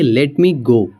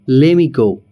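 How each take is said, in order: First: Let me is said as two full words. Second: Let me is merged into one word, lemme.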